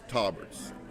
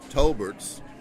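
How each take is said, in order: First: The name is said without an L sound. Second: The name is said with an L sound. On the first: The speaker calls it right. "Tauberts is actually the correct pronunciation" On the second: The speaker calls it wrong. "pronouncing it incorrectly"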